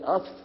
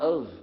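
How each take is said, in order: First: The word ends with an F sound. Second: The word ends with a V sound. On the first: The speaker calls it wrong. "We don't say of" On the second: The speaker calls it right. "We say of. / we pronounce it of with a V"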